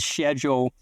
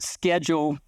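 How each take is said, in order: First: It is said with a British pronunciation. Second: It is said with an American pronunciation. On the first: "In Britain, is schedule" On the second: "American English phonology calls it schedule"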